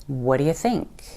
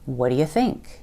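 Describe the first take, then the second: First: The first words blur together into what'ya. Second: The same.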